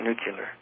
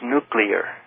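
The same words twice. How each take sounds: First: The middle is said as 'cular'. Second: The middle is said as 'clear'. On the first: The speaker calls it wrong. "not nuclear" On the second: The speaker calls it right. "I thought the word was nuclear"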